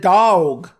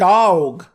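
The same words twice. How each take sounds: First: It is said in a Dallas accent. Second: The same.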